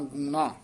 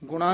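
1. ਪਹਿਲਾ ਸਵਰ ਲੰਬਾ u ਹੈ। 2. ਪਹਿਲਾ ਸਵਰ ਛੋਟਾ u ਹੈ। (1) "ਧਿਆਨ ਨਾਲ ਦਲੈਂਕੜ ਨਾਲ ਉਚਾਰਨ ਕਰਨਾ ਹੈ" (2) "ਗੁਣਾ ਨਹੀਂ ਕਹਿਣਾ"

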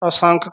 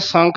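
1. ਸ਼ਬਦ ਐੜਾ ਸਵਰ ਨਾਲ ਖੁੱਲ੍ਹਦਾ ਹੈ। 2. ਸ਼ੁਰੂਆਤੀ ਐੜਾ ਲੁਪਤ ਹੋ ਜਾਂਦਾ ਹੈ। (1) "ਐੜਾ ਅੱਗੇ ਲੱਗਿਆ" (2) "ਇਹਨੂੰ ਕਿਤੇ ਸੰਖ ਨਹੀਂ ਬੋਲ ਜਾਣਾ"

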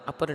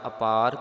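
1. 'ਪ' ਤੋਂ ਬਾਅਦ ਵਾਲੀ ਮਾਤਰਾ ਛੋਟੀ ਹੈ। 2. 'ਪ' ਤੋਂ ਬਾਅਦ ਵਾਲੀ ਮਾਤਰਾ ਲੰਮੀ ਹੈ। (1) "ਅਪਰ ਨਹੀਂ ਕਰ ਦੇਣਾ" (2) "ਕੰਨਾ ਦੇ ਸਹਿਤ ਪਾਠ ਅਪਾਰ ਕਰਨਾ ਹੈ"

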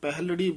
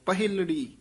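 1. 'h' ਧੁਨੀ ਤੋਂ ਬਾਅਦ ਕੋਈ ਛੋਟੀ 'i' ਸਵਰ ਨਹੀਂ ਆਉਂਦੀ। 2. 'h' ਧੁਨੀ ਤੋਂ ਬਾਅਦ ਇੱਕ ਛੋਟੀ 'i' ਸਵਰ ਆਉਂਦੀ ਹੈ। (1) "ਸਾਰੇ ਤਕਰੀਬਨ ਪਾਠੀ ਸਿੰਘ ਪਹਿਲੜੀ ਬੋਲਦੇ ਹਨ" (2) "ਪਰ ਹਾਹੇ ਸਿਹਾਰੀ ਹੈ ਪਹਿਲੜੀ"

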